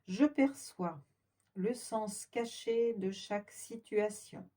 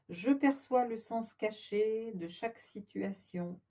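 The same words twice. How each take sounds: First: It is spoken slowly and deliberately. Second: It is spoken at an ordinary speaking pace.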